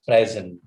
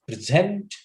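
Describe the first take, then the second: First: "present" stressed on the first syllable, PREZ-ent; noun stress. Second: "present" stressed on the second syllable, pre-ZENT; verb stress. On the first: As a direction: hit the start of "present" and let it fall, as the noun. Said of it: "it becomes a noun". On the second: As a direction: punch the end of "present", as the verb. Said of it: "use of this word as a verb". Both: Shown as a demonstration.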